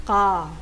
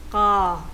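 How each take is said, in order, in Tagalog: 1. Ang k ay tense at hindi aspirated. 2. Ang k ay tense at hindi aspirated.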